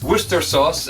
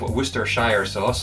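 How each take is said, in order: First: The name is said short, with two syllables. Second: The name is said long, with three syllables.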